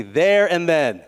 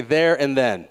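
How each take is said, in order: First: "There and then" stretched out slowly and emphatically; said like you mean it. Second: Said in the usual way. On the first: Shown as a demonstration. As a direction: draw out "There and then" firmly, prompting a crowd to repeat it. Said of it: "Say it like you mean it". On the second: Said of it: "to repeat after me".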